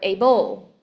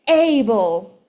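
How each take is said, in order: First: The stress is on the second syllable. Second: The stress is on the first syllable.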